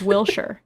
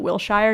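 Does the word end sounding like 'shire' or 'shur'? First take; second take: shur; shire. First: The ending sounds like 'shur', a short reduced syllable. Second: The ending sounds like 'shire', rhyming with fire. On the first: The speaker calls it right. "It's Wilshire" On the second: The speaker calls it wrong. "I called it Wilshire and everyone laughed at me"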